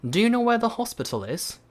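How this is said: It is said in a British accent. "근데 영국식은"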